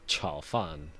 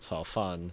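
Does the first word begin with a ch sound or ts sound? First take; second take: ch sound; ts sound. First: The first sound is a ch sound. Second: The first sound is a ts sound. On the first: It means fried rice. The speaker calls it right. "one of my friends ... said" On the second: It sounds like grass rice. The speaker calls it wrong. "the ch sound say it as a ts"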